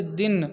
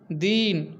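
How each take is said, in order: First: दिन with a short, quick i; short vowel. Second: दीन with a long, drawn-out ee; long stressed vowel. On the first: Teacher demonstrating syllable emphasis, short vowel in दिन. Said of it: "किसी अक्षर या शब्द पर जो बल दिया जाता है". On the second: Teacher demonstrating syllable emphasis, long stressed vowel in दीन. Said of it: "उसे बलाघात या स्वराघात कहा जाता है". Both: Shown as a demonstration.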